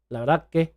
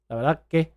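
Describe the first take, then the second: First: The s sound is dropped out entirely. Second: The s sound is dropped out entirely.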